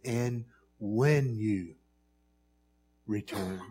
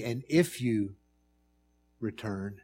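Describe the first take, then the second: First: "And when you return" drawn out very slowly, leaning on "when"; stress on when. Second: "And if you return" said plainly with no weight on "if"; stress on if. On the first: Preacher stressing the wording Luke actually used, slow and deliberate. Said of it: "he says". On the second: Preacher showing the wording Luke avoided, plainly. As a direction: read "And if you return" lightly, as the wrong wording. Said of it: "he doesn't say". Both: Shown as a demonstration.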